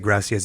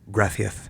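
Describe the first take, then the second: First: The c is said like an s. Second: The c is said like a lisped th.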